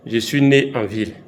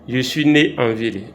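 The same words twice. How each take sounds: The two takes are said the same way.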